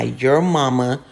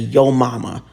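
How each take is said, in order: First: The first word is said as 'your'. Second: The first word is said as 'yo'. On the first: The speaker calls it wrong. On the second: The speaker calls it right.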